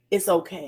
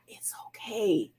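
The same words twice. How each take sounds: First: Said in the usual way. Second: Slow whisper of reassurance. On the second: Real, not acted. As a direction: breathe it out softly, slowly. Soft reassurance after "if you're not.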